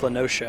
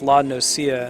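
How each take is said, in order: First: The second word sounds like 'ocean'. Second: The second word does not sound like 'ocean'. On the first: The speaker calls it right. "It's like ocean. Sounds better" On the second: The speaker calls it wrong. "okay, that's La Nocia"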